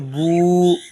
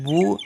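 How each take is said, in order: First: The vowel is drawn out long. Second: The vowel is short and quick. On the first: "इसको खींचेंगे" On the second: "इसको खींचेंगे नहीं"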